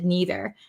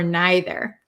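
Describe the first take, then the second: First: It is said with an American pronunciation. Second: It is said with a British pronunciation. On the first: "I'm from America, so I say either and neither" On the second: "British people... say either or neither"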